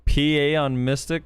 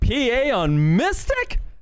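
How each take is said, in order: First: It is read flatly, without expressive inflection. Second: It is read with expressive, questioning inflection.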